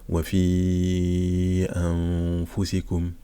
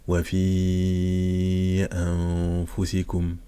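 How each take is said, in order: The two takes are said the same way.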